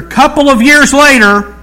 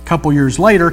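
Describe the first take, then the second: First: High, loud time-jump caption; mock announcement. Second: Said in the usual way. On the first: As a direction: belt it out like a big title card.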